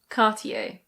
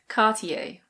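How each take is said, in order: First: It is said with a British pronunciation. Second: It is said with a British pronunciation.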